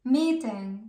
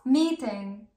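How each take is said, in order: Both takes have the same delivery.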